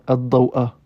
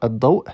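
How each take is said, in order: First: The word ends with a final vowel sound. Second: The word ends on the glottal stop, no vowel. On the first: The speaker calls it wrong. "on ne dira pas ad-daw'a" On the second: The speaker calls it right. "donc on dira ad-daw'"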